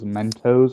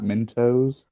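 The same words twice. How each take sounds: First: The first syllable sounds like 'men'. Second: The first syllable sounds like 'mint'. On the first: The speaker calls it right. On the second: The speaker calls it wrong.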